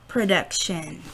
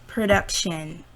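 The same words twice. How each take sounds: The two takes are said the same way.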